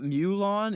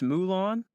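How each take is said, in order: First: The first syllable sounds like 'mew'. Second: The first syllable sounds like 'moo'. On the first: The speaker calls it wrong. "it's not Mulan" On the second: The speaker calls it right. "it's Mulan"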